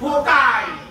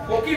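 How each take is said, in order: First: The word ends with an 'eye' sound. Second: The word ends with an 'ee' sound. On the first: The speaker calls it right. "तो फोकाई" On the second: The speaker calls it wrong. "फोकी नहीं"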